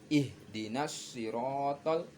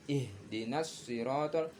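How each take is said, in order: Both takes have the same delivery.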